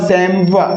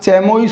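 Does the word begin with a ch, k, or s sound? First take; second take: s; ch. First: It starts with s and ends in -wa. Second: It starts with ch and ends in -ois. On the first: "इसका correct जो pronunciation है वो क्या होगा? वो होगा सैमवा।" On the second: "क्या चैमोइस हो जाएगा?"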